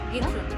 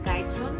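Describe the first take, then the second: First: The first vowel sounds like 'ee'. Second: The first vowel sounds like 'eye'. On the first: This is how locals say the name. "কি আসল উচ্চারণ Antara?" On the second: This is how an outsider says the name. "মানে আমার উচ্চারণে গাইট্রন"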